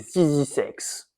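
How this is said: The letters are said with American pronunciation.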